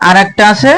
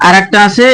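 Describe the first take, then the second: No difference in how they are said.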